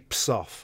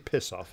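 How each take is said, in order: First: The first word is said without its vowel. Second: The first word is said with its vowel. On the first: The speaker avoids fully saying the rude word. "she'd take the eye out" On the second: The rude word is said in full. "She wouldn't say piss off"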